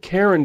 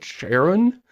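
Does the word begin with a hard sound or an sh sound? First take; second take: hard; sh. First: The word begins with a hard consonant sound. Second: The word begins with a soft sh sound. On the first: "It looks like Charon to me" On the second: "like the soft sh sound at the beginning"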